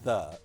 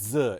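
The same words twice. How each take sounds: First: It begins with a th sound. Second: It begins with a z sound. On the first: It is the normal English pronunciation. "instead of the" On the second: It is a mock French pronunciation. "it was an English accent saying the"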